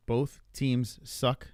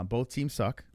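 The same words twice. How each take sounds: First: "Both... teams... suck", one word at a time; slow and deliberate. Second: Said in the usual way. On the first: Retold or imitated. Repeating the shirt slogan for effect, slow and deliberate. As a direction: drag out "Both teams suck", a pause after each word.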